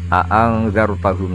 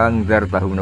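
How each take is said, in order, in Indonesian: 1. Kedua hamzah di awal kata sama-sama jelas diucapkan. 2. Kedua hamzah digabung menjadi satu. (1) "hamzahnya dibaca tahqiq" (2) "bil idgham"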